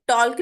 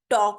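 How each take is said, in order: First: टॉल्क with the l sounded; wrong pronunciation. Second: टॉक with no l at all; silent l. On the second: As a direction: drop the l, say टॉक. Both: Shown as a demonstration. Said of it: "टॉक में एल silent है".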